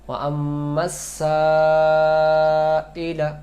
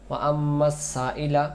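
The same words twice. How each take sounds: First: The vowel after the s is held long. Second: The vowel after the s is cut short. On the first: The speaker calls it right. "এটা আদায় করতে হলে" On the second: The speaker calls it wrong. "আলিফ অক্ষরটা এটা কমে যাবে"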